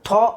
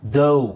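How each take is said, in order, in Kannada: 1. ಇದು ಸಾದಾ 'aa' ಸ್ವರ ಆಗಿ ಕೊನೆಯಾಗುತ್ತೆ. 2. ಇದು 'ow' ದ್ವಿಸ್ವರ ಆಗಿ ಕೊನೆಯಾಗುತ್ತೆ. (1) "ಸೊ ಇಲ್ಲಿ ನಾವು ಥಾ ಅಂತ ಹೇಳ್ತೀವಾ? ಇಲ್ಲ" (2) "ಅದನ್ನು ದೌ ಅಂತ ಹೇಳಬೇಕು"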